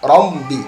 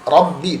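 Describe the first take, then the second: First: A nasal m sound comes before the b. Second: The b is said with no nasal sound. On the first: The speaker calls it wrong. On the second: The speaker calls it right.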